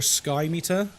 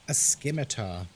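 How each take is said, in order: First: The first syllable sounds like 'sky'. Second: The first syllable sounds like 'sim'. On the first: The speaker calls it wrong. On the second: The speaker calls it right.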